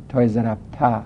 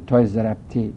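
First: "ضربته" ending in an open "ta"; final "ta" vowel. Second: "ضربته" ending in a short "te"; final "te" vowel. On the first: Teacher citing masculine example to students, "ضربته" ending in "ta". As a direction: say "ضربته" with an a-sound on the last syllable. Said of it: "تای ضربته رو نمیگه تا". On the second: Teacher citing feminine example to students, "ضربته" ending in "te". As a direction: say "ضربته" with an e-sound on the last syllable. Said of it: "تای ضرب تی را نمیگه تی". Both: Shown as a demonstration.

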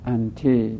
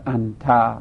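First: "انت" pronounced as "ante"; final "te" vowel. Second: "انت" said slowly as "anta"; final "ta" vowel. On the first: Teacher citing standalone pronoun to students, "انت" ending in "te". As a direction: end "انت" on a short e-sound. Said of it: "و انت ضمیر منفصله". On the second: Teacher citing standalone pronoun to students, "انت" ending in "ta". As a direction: end "انت" on an open a-sound. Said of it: "تای ضربته رو نمیگه تا". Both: Shown as a demonstration.

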